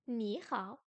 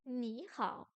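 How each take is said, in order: The two takes are said the same way.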